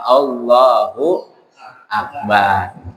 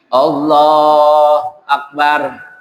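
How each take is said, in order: First: A hu syllable links Allah to Akbar. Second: Allah runs straight into Akbar with no hu. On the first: The speaker calls it right. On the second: The speaker calls it wrong. "tentu bacaannya juga salah"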